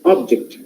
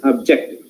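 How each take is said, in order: First: "object" as OB-ject, falling after OB; stress on first syllable. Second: "object" as ob-JECT, rising onto JECT; stress on second syllable. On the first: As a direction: noun "object", punch the OB. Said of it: "The same way". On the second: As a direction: verb "object", lean on JECT. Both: Shown as a demonstration.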